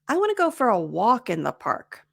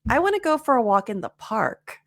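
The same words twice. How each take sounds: First: The word walk carries the main stress. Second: The word park carries the main stress. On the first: A walk is chosen rather than a run or a game. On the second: The park is chosen rather than the river or the gym.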